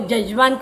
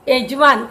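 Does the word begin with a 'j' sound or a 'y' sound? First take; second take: j; y. First: The word begins with a 'j' sound. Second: The word begins with a 'y' sound.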